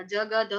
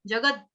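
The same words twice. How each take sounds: First: जगद with a full द and a vowel after it; wrong pronunciation. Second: जगद with a clipped half द, no vowel after it; correct pronunciation. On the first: Teacher imitating a student's error in जगद. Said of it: "द पूरा कर दिया". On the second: Teacher showing the student the correct जगद. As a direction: cut the द short in जगद. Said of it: "द पूरा नहीं है". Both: Shown as a demonstration.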